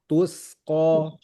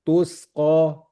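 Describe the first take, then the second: The two takes are said the same way.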